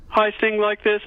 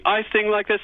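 First: Sung high on a pitch; sung demo phrase; singing. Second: Put-on child's sung echo, much higher; imitating a child singing back. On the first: Shown as a demonstration. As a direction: sing the line out, much higher. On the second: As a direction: sing it back high. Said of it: "they go suddenly".

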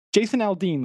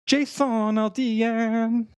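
First: Said in the usual way. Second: Announcer voice. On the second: Pretend. Hammy announcement of American name.

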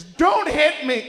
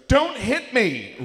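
First: Very high, slow, loud don't hit me; screamed plea. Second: High, slow shrieking don't hit me; screamed plea. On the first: Fiancée wakes and screams at a greeting, shrieking. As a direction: shriek like you're being attacked. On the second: Fiancée yelps at a harmless pat, screaming. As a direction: shriek it like you're about to be struck. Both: Retold or imitated.

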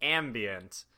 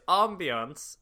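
First: "ambient" said AM-bee-ent, a as in cat; flat English a at the start of "ambient", said slowly; "ambient" with short a. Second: "ambiance" said French-style, AHM-bee-ahns. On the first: Showing friends the switch between words, "ambient" starting with am. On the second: Showing friends the switch between words, "ambiance" starting with ah. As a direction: open ah at the start of "ambiance", said slowly. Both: Shown as a demonstration. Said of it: "it's silly that we switched that".

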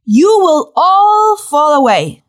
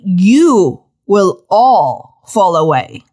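First: Said in the usual way. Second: Very slow, drawn-out repeat; every word of "fall away" stretched slowly. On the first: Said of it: "strangest announcement". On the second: Shown as a demonstration. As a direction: spell out "you will all fall away" word by word. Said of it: "Please say it slowly".

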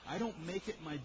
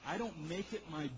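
No difference in how they are said.

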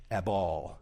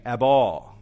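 First: Ebal said low and soft, as /æbɔl/; quiet word demo. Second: Ebal barked out loud, as /æbɔl/, falling hard; emphatic ebal. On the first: Preacher naming the Hebrew word to parents, soft and low. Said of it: "you would use this Hebrew word". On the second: Parent refusing a child's bedtime delay, loud and final. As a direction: say Ebal like a flat-out refusal, much louder. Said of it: "That's the Hebrew word". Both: Shown as a demonstration.

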